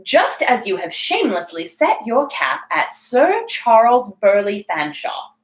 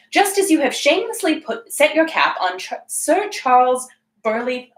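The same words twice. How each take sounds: First: Slow, measured dowager's accusation; deliberate retake. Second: Dowager's line with stumbles; fumbled character line. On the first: Lady Craven accusing her companion, slow deliberate retake. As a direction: say it slowly, clearly articulated and haughty. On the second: Lady Craven accusing her companion, stumbling read. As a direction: start haughtily, halting and correcting yourself. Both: Acted. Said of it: "let me take that whole sentence again".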